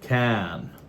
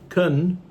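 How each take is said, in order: First: The vowel is full and strong. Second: The vowel is reduced and weak. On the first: "instead of can" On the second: "we say it's kun instead of can"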